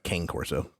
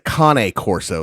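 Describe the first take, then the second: First: The first word is said like English 'cane'. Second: The first word is not said like English 'cane'. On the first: This follows the spelling, as many people say it. "it looks like cane Corso, which is what a lot of people call it" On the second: This is the breed's original pronunciation. "how they actually pronounce it"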